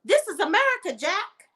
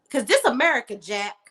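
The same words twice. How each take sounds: First: "This is America, Jack" pitched way up with sass; sassy high "This is America, Jack"; sassy put-down. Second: Said in the usual way. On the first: Retold or imitated. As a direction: fling it at him high and cheeky. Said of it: "Girl, I would have been like". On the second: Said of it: "how long have you been in America".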